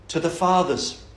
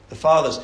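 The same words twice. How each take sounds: First: Said in the usual way. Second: "fathers" repeated and pressed a bit louder; emphasis on fathers. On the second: Shown as a demonstration. Preacher stresses the word to his listeners, a bit louder. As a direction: lean on "fathers" the second time. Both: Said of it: "The word fathers".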